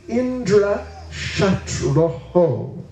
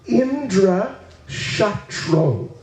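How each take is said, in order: First: The last word ends with an extra 'ho' syllable. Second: The last word ends in 'tro' with no 'ho'. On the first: The speaker calls it right. "it should be Indra Shatroho" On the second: The speaker calls it wrong. "he mispronounced"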